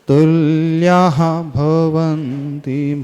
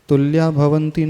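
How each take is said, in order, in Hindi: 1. Tulya स्वर के बाद फुसफुसाती h-ध्वनि के साथ खत्म होता है। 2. Tulya सादे स्वर पर खत्म होता है, कोई h-ध्वनि नहीं। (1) "तुल्याः विसर्ग का उच्चारण आना चाहिए" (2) "तुल्या भवन्ति नहीं पढ़ना"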